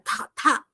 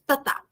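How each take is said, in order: First: The t comes out with a strong puff of air. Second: The t comes out with very little air. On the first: This is the Korean sound. "fazendo em coreano, ... você vai perceber como vem ventinho na sua mão" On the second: This is the ordinary Portuguese sound. "Você vai perceber que não vai vir muito, é, muito ar da sua boca"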